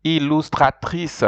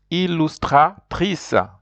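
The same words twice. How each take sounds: First: "Illustratrice" said with a throaty French R; French model word. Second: "Illustratrice" stretched slowly, every syllable clear; slow French model. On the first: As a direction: model "Illustratrice" again for repetition. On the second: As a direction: drag out "Illustratrice" so learners catch each sound. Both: Shown as a demonstration.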